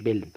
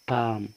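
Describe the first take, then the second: First: The L sound is pronounced in the word. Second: The L sound is silent in the word. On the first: The speaker calls it wrong. "ما نقولش بلم، عشان في ناس يا جماعة بتنطق غلط" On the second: The speaker calls it right. "لا، اسمه بام بام"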